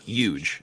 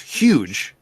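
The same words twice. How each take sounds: First: The word begins with a Y sound, no H. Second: The word begins with a breathy H sound. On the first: The speaker calls it wrong. "It's not huge" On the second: The speaker calls it right. "Like there is an H there"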